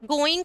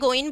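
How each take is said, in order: First: The word ends with a full 'ng' sound. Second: The word ends with a plain 'n' sound.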